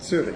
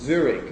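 First: The word begins with a ts sound. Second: The word begins with a plain z sound. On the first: "and not Zurich" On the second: "That's why it's Zurich"

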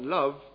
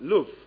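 First: The vowel is the southern strut vowel. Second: The vowel is the northern foot-like vowel. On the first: "not love" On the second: "they will talk about love"

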